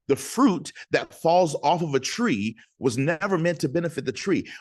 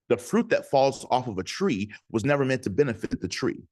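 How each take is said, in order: First: It is said more slowly. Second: It is said at normal speed.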